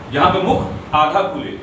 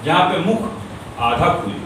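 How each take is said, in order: Both takes have the same delivery.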